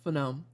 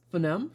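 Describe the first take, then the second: First: Phoneme. said flat and settled, falling; confirming Phoneme. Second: Phoneme? asked with a rising, unsure tune; unsure questioning Phoneme. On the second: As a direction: try out Phoneme? hesitantly, rising. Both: Real, not acted.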